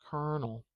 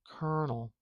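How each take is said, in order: Both takes have the same delivery.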